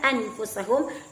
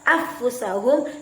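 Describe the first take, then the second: First: The n is pronounced clearly and separately. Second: The n is merged away and dropped. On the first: "Tidak boleh dibaca secara izhar" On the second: "tidak juga dibaca secara idgham"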